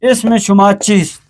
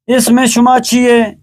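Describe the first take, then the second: First: چیست with final st; full formal ending on چیست; written Persian form. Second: چیئے as chi-ye, st dropped; spoken Persian form. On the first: Teacher converts spoken to written, now full چیست. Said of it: "فارسی نوشتاری". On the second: Teacher converts spoken to written, first چیئے as chi-ye. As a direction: colloquial open -ye on چیئے. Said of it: "فارسی گفتاری". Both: Shown as a demonstration.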